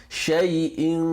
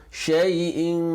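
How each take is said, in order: The two takes are said the same way.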